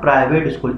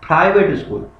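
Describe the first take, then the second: First: The first consonant has no puff of air. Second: The first consonant has a strong puff of air. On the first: The speaker calls it wrong. "It's not" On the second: The speaker calls it right. "पी में फे की sound आ रही है"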